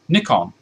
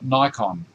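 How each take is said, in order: First: The first vowel is short. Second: The first vowel is long. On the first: "a carryover from me with my camera gear" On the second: "in the States, you guys would call it Nikon because there's only one K, which makes the vowel an ordinary vowel, not a short vowel"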